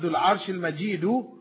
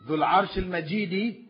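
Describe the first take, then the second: First: The last word ends with a u vowel. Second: The last word ends with an i vowel. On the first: The owner of the throne is the one called glorious. "the glorious owner of the throne" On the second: The throne is the one called glorious. "the owner of the glorious throne"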